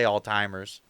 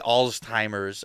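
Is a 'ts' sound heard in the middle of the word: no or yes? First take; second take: no; yes. First: The middle has no 'ts' sound. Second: The middle has a clear 'ts' sound. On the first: "I just say Alzheimer's" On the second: "I don't say Alzheimer's"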